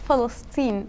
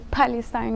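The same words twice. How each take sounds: First: The word begins with an F sound. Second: The word begins with a P sound. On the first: The speaker calls it right. "we say Palestine... we don't have the P, but we have the F" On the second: The speaker calls it wrong. "We don't say Palestine"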